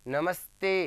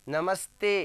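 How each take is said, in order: Both takes have the same delivery.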